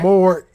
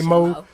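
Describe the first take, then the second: First: The final sound is fully pronounced at the end. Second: The final sound is dropped, said as mo. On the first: The speaker is being professional. "When I feel like being professional, I say more. And I make sure you hear the E" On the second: The speaker is tired and casual. "when I'm tired, I say Mo"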